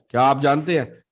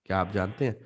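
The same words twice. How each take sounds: First: जानते punched loud, falling after; louder with weight on जानते; stress on जानते. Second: क्या आप जानते हैं said low, lifting on हैं; soft low question rising at हैं; quiet low rise ending on हैं. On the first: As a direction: hit जानते hard and drop. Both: Shown as a demonstration. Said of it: "There is an intonation change".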